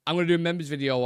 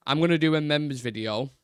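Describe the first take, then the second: First: Said in the usual way. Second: Lightly hammed-up Italian accent; playful hint of Italian accent; mock Italian accent. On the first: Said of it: "I'm not gonna do an Italian accent". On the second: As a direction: put on a slight jokey Italian lilt. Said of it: "I don't know why I'm doing that".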